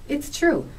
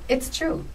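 No difference in how they are said.

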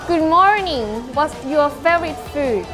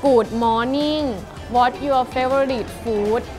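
First: It is spoken with a native-like English accent. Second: It is spoken with a Thai accent. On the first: "เอาเป็นสำเนียงต่างประเทศก่อนแล้วกัน" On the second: "เราลองมาใช้สำเนียงไทยพูดกันบ้างดีกว่านะคะ"

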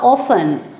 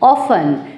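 First: The t sound in the middle is silent. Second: The t sound in the middle is silent.

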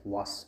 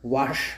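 First: The word ends with a plain s sound. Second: The word ends with an sh sound. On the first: The speaker calls it right. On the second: The speaker calls it wrong.

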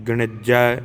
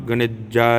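The two takes are said the same way.

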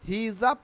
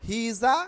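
No difference in how they are said.

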